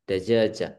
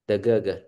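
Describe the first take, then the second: First: The word is said with a j sound. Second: The word is said with a hard g sound. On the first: "kita diajari cara bacanya"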